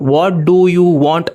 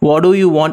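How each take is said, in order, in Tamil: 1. ஒவ்வொரு சொல்லும் முழுசா, கவனமா சொல்லப்படுது. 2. சொற்கள் அமெரிக்க பாணியில ஒண்ணோட ஒண்ணு சேர்ந்து ஓடுது. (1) "அப்படின்னு கேட்கணும்னு அவசியம் இல்ல" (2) "கொஞ்சம் ஸ்டைலா இருக்கும். அமெரிக்கன் இங்கிலீஷ்ல அப்படிதான் பேசுவாங்க"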